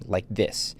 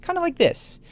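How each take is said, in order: First: "like this" ending on a firm falling tone, softer; downward inflection. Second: "kinda like this" pitched much higher, sounding like a nervous question; upward inflection. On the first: Showing viewers Tywin's statement tone, falling and final. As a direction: let "this" drop down like a statement, no question. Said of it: "It's always downward". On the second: Showing viewers Joffrey's questioning tone, pitched much higher. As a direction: lift "like this" up high as if asking. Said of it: "asking Tywin a question with an upward tone". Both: Shown as a demonstration.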